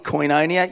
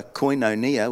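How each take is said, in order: First: A touch of Aussie in "Koinonia"; Aussie accent. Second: A lightly posh "koinonia"; posh pronunciation. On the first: Shown as a demonstration. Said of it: "We said it a bit Aussie". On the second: Retold or imitated. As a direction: say "koinonia" in a more refined accent. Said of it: "which sounds much more posh".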